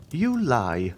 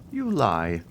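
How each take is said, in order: First: Sharper, more insistent command; more imperative. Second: Firm, unyielding accusation; commanding authority. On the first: Abbé repeating the accusation, still more imperatively. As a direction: press him harder the third time. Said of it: "with a still more imperative tone". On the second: Priest confronting Caderousse, with irresistible authority. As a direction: state it as undeniable fact. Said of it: "with a tone of irresistible authority". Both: A narrator's reading.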